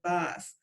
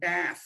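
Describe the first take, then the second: First: The word is said with a British accent. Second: The word is said with an American accent.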